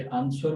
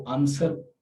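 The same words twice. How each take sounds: First: "आंसर" with the w sounded, "an-swer"; common mispronunciation. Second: "आंसर" with silent w, "an-ser"; correct pronunciation. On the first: Teacher showing a common mistake, "आंसर" with an audible w. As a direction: say "आंसर" wrongly as "ans-war". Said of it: "गलती से आंसर पढ़ लेते हैं". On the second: Teacher correcting learners' habit, "आंसर" with the w dropped. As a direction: say "आंसर" without any w sound. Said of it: "डब्ल्यू की आवाज़ बिल्कुल नहीं आती". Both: Shown as a demonstration.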